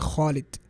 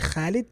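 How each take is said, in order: First: The first consonant sounds heavy and full. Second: The first consonant sounds light and thin. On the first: The speaker calls it right. "say Khalid" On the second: The speaker calls it wrong. "Don't say Khalid"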